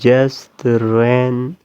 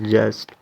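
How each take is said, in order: First: The word is said in a reduced, linked form. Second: The word is said in its full form. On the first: "but American people use this word" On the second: "this word pronounced just"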